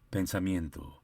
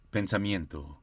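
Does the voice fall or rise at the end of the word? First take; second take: fall; fall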